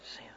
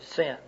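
First: It is said almost in a whisper. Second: It is said in a loud voice.

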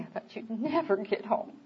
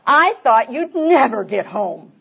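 First: The voice sounds warm and affectionate. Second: The voice sounds sharp and irritated. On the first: The speaker is glad the other is finally home. "Oh, honey" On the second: The speaker is annoyed that the other came home late. "if I say"

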